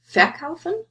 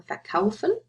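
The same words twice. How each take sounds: First: "verkaufen" stressed on VER; wrong stress on the prefix. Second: "verkaufen" stressed on KAU; stress on the stem. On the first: Teacher offering the wrong option, VER stressed in "verkaufen". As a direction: hit the first syllable of "verkaufen", full VER. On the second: Teacher asking where the stress goes, KAU stressed in "verkaufen". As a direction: keep VER light and stress KAU in "verkaufen". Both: Shown as a demonstration. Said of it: "where's the stress".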